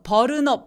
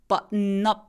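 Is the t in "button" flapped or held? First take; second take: flapped; held. First: The t is flapped like a quick r. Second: The t is a held breath stop. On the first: The speaker calls it wrong. "버른업은 안 돼요" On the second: The speaker calls it right. "숨 참는 소리"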